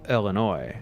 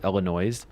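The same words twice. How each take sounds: First: The final S is silent. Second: The final S is pronounced. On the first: The speaker calls it right. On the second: The speaker calls it wrong.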